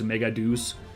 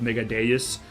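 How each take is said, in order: First: The last word is one syllable, like 'deuce'. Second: The last word is two syllables, like 'day-us'. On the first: This is how the dub says it. The speaker calls it wrong. "it really sounds like they're saying mega douche, and that just sounds really stupid" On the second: This is how the speaker will say it. The speaker calls it right. "I'm gonna be doing the line read mega deus"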